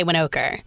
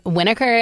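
First: Winokur as wih-NO-ker, lower; relatives' middle-syllable stress. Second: Winokur as WIN-uh-ker; relatives' first-syllable stress. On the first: Guest showing the other half's way, Winokur as wih-NO-ker. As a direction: drop the pitch, stressing a long NO in Winokur. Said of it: "half say Winokur". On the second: Guest showing how half her relatives say it, Winokur as WIN-uh-ker. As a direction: punch WIN in Winokur, with a short uh middle. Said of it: "Half of my relatives say". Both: Shown as a demonstration.

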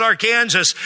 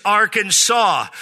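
First: "Arkansas" said ar-KANZ-us; wrong state pronunciation. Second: "Arkansas" said AR-kan-saw; three drawn-out syllables in "Arkansas": AR-kan-SAW; correct state pronunciation. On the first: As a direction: say "Arkansas" like "our Kansas". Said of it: "No, it's not Arkansas". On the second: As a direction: say "Arkansas" with a silent final s, ending in "saw". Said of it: "It's Arkansas". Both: Shown as a demonstration.

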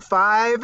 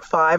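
First: Higher, amazed question; a stunned echo of the number; surprised echo. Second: Said in the usual way. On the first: Retold or imitated. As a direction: repeat it in disbelief. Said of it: "I'm like". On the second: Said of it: "She's like".

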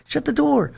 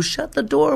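First: Scolding mom again. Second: Scolding mom. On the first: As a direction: close out the nagging command. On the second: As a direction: bark it at the kid by the open door. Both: Retold or imitated. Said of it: "And I go".

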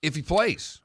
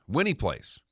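First: IF HE PLAYS left hanging, rising on "plays"; higher, rising end on "plays"; questioning if. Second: WHEN HE PLAYS, settling with a fall; falling, settled end on "plays"; correcting to when. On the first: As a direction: lift "plays" high, as an open condition. Corrects if to when. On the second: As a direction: lean on "he", then drop away on "plays". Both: Real, not acted.

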